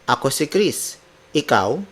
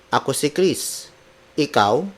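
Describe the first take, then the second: The two takes are said the same way.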